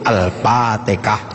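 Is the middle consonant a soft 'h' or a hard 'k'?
k. The word has a hard 'k' sound. The speaker calls it wrong.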